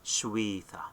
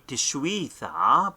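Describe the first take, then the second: First: The word begins with a sh sound. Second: The word begins with a t sound. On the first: The speaker calls it right. "we silent the tau at the beginning, so it's going to be shwitha" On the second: The speaker calls it wrong. "it should be tishwitha, but we don't say tishwitha"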